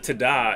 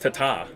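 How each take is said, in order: First: The name is said with a D sound. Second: The name is said with a T sound. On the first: The speaker calls it wrong. "It's T's, not D's. It's not Tada" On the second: The speaker calls it right. "It's T's"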